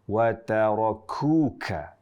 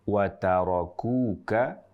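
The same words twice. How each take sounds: First: The k is said with heavy, excessive breath. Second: The k is said with light breath. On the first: The speaker calls it wrong. "Contoh yang berlebihan" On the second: The speaker calls it right. "cukuplah mengucapkan dengan hames yang ringan"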